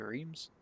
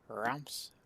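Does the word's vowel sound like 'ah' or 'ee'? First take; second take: ee; ah. First: The vowel sounds like 'ee', as in reams. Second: The vowel sounds like 'ah', as in rams. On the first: "If I was to just say it not knowing, I'd say" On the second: "Kind of looked up the pronunciation"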